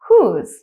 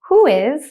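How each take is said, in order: First: The two words are joined into one syllable. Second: The two words are said fully and separately.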